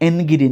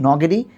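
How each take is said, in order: First: The name begins with a vowel before n. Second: The name begins directly with the n sound. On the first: The speaker calls it wrong. "উচ্চারণটা অ্যান্টনি বা এনগিডি না" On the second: The speaker calls it right. "উচ্চারণটা হচ্ছে নটিনি নগেডি"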